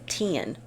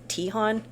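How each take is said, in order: First: The name has no h sound between vowels. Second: The name has an h sound between vowels. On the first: The speaker calls it right. "It's Tian" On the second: The speaker calls it wrong. "I was saying it wrong for a really long time. I was saying Tihan"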